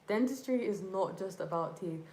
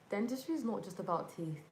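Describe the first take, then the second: First: It is said louder than normal speech. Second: It is said at a normal speaking volume.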